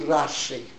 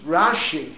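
First: The word is said with an 's' sound. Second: The word is said with a 'sh' sound. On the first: "They couldn't pronounce the shin" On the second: "he means Rashi"

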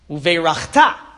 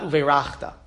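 First: The stress is on the last syllable. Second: The stress is on the second-to-last syllable. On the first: It is a command to bless. The speaker calls it right. "Uveirachta, not uveirachta" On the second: It says the blessing already happened. The speaker calls it wrong. "not uveirachta"

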